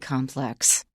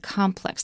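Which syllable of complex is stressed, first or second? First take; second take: second; first. First: The stress is on the second syllable. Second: The stress is on the first syllable. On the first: It means complicated, at the end of a sentence. "we may stress it on the second syllable" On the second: It names a group of buildings. "then we put the stress on the first syllable"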